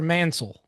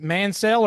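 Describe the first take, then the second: First: "Mansell" with a swallowed "sul" ending; reduced second syllable. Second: "Mansell" with a full "sell" ending; full second syllable. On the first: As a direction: say "Mansell" like MAN-sul, weak last vowel. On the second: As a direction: say "Mansell" as man-SELL, clear e in the last syllable. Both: Shown as a demonstration. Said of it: "nail down how we say your last name".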